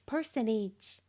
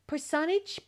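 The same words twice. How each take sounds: First: Said in the usual way. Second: "personage" tried as per-SON-age, rising; stressed second syllable. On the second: Real, not acted. Reader stumbling over an odd word in the game, questioning. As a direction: sound out "personage" uncertainly, weight on SON. First try at unfamiliar word.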